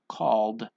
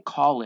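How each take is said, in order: First: The word ends in a d sound. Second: The ending is said as an extra syllable. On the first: The speaker calls it right. "We just have that D sound" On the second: The speaker calls it wrong. "We don't say called"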